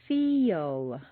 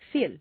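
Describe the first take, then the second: First: A y-like glide comes before the L sound. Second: The vowel goes straight into the L sound. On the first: The speaker calls it right. "You need to say ... Is that really a Y?" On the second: The speaker calls it wrong. "If you say just the letters that you see, it will sound more like"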